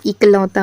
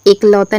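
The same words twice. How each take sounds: First: इकलौता starting with short 'i'; corrected word form. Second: एकलौता starting with an 'e' sound; incorrect word form. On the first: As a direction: say इकलौता as 'ik-lau-taa'. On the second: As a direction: say एकलौता as 'ek-lau-taa'. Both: Shown as a demonstration. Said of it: "क्या होता है, इकलौता होता है".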